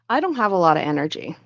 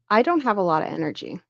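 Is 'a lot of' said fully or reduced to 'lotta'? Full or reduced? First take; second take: reduced; reduced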